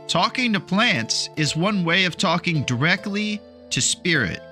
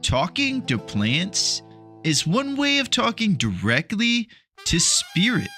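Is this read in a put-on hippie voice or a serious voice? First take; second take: serious; hippie voice. First: It is read plainly in a serious voice. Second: It is read in a put-on hippie voice. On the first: "saying it nice and concisely and, and serious" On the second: "Let me read it in the proper hippie voice"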